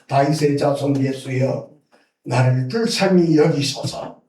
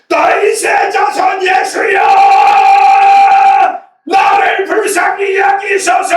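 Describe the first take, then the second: First: It is said quietly, without shouting. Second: It is shouted loudly.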